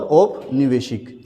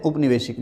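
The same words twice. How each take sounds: First: औपनिवेशिक starting with "au"; correct form. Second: उपनिवेशिक starting with short "u"; wrong form. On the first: Teacher corrects students, औपनिवेशिक starting with "au". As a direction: open औपनिवेशिक on a full "au". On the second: Teacher shows a mistake, उपनिवेशिक starting with "u". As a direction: open उपनिवेशिक on "u". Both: Shown as a demonstration. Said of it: "जो कि गलत है".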